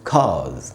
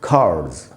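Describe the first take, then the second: First: The r sound is dropped. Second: The r sound is clearly pronounced. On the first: "British उच्चारण अगर करेंगे, उसमें आर का उच्चारण नहीं करना है" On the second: "American English में इसको पढ़ेंगे"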